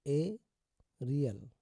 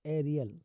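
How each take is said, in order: First: "एरियल" slowly, long pause after the first sound; broken into parts. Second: Said in the usual way. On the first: Shown as a demonstration. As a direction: split "एरियल" into "ए" and "रियल". Teacher breaks word up for learners.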